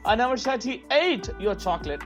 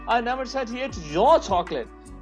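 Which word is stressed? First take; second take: ate; your. First: The stress is on "ate". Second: The stress is on "your".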